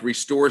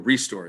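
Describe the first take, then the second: First: The stress is on the second syllable. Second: The stress is on the first syllable. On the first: It means to bring something back. The speaker calls it wrong. "It's not like restore something" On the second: It names the store. The speaker calls it right. "It's like a ReStore"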